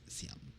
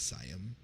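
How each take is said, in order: First: The first syllable sounds like 'see'. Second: The first syllable sounds like 'sigh'. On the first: This is how locals say it. The speaker calls it right. "but it's Siam. It's not Sai, it's C" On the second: This is how many foreigners say it. The speaker calls it wrong. "a lot of foreigners pronounce it as Siam"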